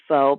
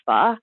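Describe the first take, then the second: First: The word has an American English pronunciation. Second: The word has a pronunciation closer to Vietnamese. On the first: The speaker calls it wrong. "what Americans pronounce as pho" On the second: The speaker calls it right. "is really technically pronounced more like pho"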